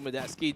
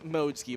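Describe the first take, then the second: First: The name is said with a Filipino-style pronunciation. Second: The name is said with its standard pronunciation. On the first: The speaker calls it wrong. "does kind of seem um, natural in the Filipino accent of things" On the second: The speaker calls it right. "but it really is Modesky"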